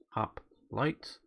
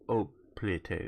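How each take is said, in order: First: The word begins with an H sound. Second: The word begins with a vowel sound. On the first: "as opposed to hoplite" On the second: "like dropping the H"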